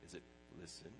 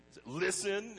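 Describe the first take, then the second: First: "listen" said low and softer, no push; "listen" in a soft, low, unemphatic read. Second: "listen" punched much higher and louder; "listen" as a loud, high, emphatic call; stress on LISTEN. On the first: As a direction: ask "Is it listen?" quietly, understated. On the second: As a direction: hit "listen" hard as a command. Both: Shown as a demonstration. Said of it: "where do you put the emotional emphasis".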